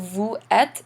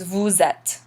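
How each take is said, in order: First: The two words are said separately without linking. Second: The words are joined by a z sound. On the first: "instead of vous êtes" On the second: "they run this together ... It makes the sound like the English Z"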